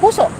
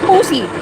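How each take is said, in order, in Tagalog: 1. Ang salita ay nagtatapos sa patinig na 'oh'. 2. Ang salita ay nagtatapos sa patinig na 'ee'. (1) "kahit bata nasasabi ang salitang puso ng diretso" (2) "alam mo ba ang sabi niya sa salitang puso? Pussy"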